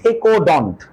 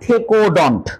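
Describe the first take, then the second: First: The ending sounds like 'dont'. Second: The ending sounds like 'dont'.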